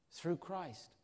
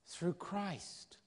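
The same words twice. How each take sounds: The two takes are said the same way.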